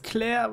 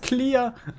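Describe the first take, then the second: First: It is said with a German pronunciation. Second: It is said with an English pronunciation. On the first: "wenn man das deutsch ausspricht" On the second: "Das englische Wort von. Für klar im Kopf ist clear"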